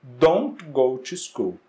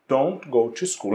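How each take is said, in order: First: Slow, deliberate don't go to school, each word spaced out; slow model sentence. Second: Said in the usual way. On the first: Shown as a demonstration. Teacher modeling the negative sentence for students, slow and deliberate. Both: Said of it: "Então, na negativa".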